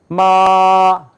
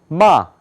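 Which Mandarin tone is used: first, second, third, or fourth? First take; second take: first; fourth. First: It is said with the first tone. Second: It is said with the fourth tone. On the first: It means mother. "첫 번째 이제 이렇게 발음을 해요" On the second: It means to scold. "네 번째 마 이렇게 발음해요"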